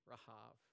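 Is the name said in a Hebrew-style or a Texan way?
Hebrew-style. The name is said Hebrew-style, ending in v. The speaker calls it right. "probably the more appropriate Rahab"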